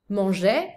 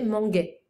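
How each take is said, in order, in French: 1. La consonne du milieu est un son zh doux. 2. La consonne du milieu est un son g dur. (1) "tu es obligé de mettre le e au milieu" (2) "sinon ça fait manguait"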